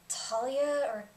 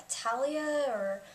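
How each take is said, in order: The two takes are said the same way.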